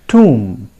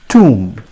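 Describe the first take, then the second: The two takes are said the same way.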